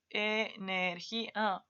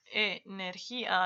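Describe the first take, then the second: First: "Energía" spoken very slowly, syllable by syllable; "Energía" split out with the í on its own. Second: "Energía" run together as one smooth word; "Energía" left joined, unsplit; said whole. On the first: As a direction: break "Energía" into separate syllables. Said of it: "aquí está la real". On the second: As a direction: read "Energía" at a slightly slow pace without splitting it. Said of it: "aquí sigue juntito". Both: Shown as a demonstration.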